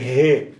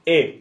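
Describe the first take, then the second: First: It is said with a breathed h from inside. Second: It is said French-style, without the breathed h.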